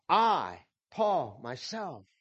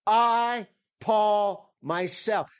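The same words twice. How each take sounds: First: Said in the usual way. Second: "I" hit much higher and louder, "Paul" almost as strong, "myself" easing down; emphatic. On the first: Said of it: "you don't need all of that". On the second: Shown as a demonstration. Pastor proclaiming Paul's words to the congregation, emphatic. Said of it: "This is very emphatic".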